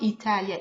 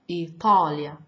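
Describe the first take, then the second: First: The t is a plain, light sound. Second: The t is a heavy, emphatic sound. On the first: The speaker calls it wrong. "we don't use the t, normal t ... Not Italia" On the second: The speaker calls it right. "We use the ta ... but Italia"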